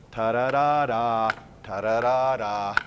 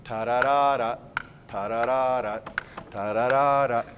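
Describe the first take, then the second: First: Slow sung "ta-da-da-da" with the last "da" held long; long last note. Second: "ta-da-da-da" sung with the last "da" clipped short; short last note. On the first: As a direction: sing "ta-da-da-da" and stretch the final note. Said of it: "make the last eighth note long". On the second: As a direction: sing "ta-da-da-da" with a short final note. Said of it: "So I don't hear". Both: Shown as a demonstration.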